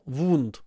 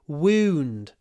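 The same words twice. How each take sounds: First: It is said with a Russian accent, mouth nearly closed. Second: It is said with an English accent, jaw lowered. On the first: The speaker calls it wrong. "If you pronounce it Russian style" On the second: The speaker calls it right.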